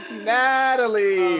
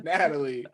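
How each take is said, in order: First: Natalie stretched out slow and high in disbelief; exasperated drawn-out name. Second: Said in the usual way. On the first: Real, not acted. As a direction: groan her name like she can't believe it.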